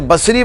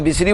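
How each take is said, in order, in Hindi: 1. पहला स्वर खुला 'a' वाला है। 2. पहला स्वर छोटा 'i' वाला है। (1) "यानी इसे बसरी पढ़ा जाए" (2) "हमारे यहाँ बिसरी बोला जाता है, और बिसरी ज़्यादा फसी नहीं है"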